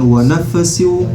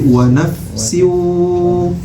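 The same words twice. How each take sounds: First: The nasal w sound is cut short. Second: The nasal w sound is held for two beats. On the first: The speaker calls it wrong. "bukan wa nafsiu" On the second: The speaker calls it right. "Kenapa waw tasydid di sini harus ditahan?"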